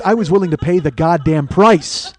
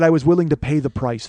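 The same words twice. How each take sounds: First: Building loud emphasis up to PRICE; loud triumphant boast. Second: Said in the usual way. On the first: Real, not acted. Boasting to listeners about the pain, loud triumphant emphasis. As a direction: proclaim it louder, hammering "goddamn price".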